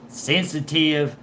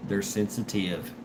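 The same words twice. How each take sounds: First: "Sensitive" pushed up slowly in mockery; mocking emphasis. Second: Said in the usual way. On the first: Real, not acted. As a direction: draw out "Sensitive" to tease. Repeats the word mockingly.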